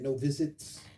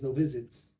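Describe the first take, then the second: First: The T in visits is crisp and over-enunciated. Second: The T in visits is soft and casual. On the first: It is made clearer for the recording. "we want to just punctuate that T a little bit" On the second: This is the everyday way to say it. "The way you say it is"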